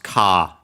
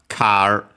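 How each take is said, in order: First: The r is dropped and the vowel lengthened. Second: The word ends with an r sound. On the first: "English varieties that don't have uh, those sounds" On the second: "the typical"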